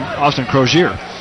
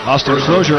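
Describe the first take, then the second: First: The name is said with an altered pronunciation. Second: The name is said in its usual way.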